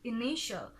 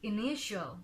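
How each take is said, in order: First: The ending is one short 'shul' syllable. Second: The same.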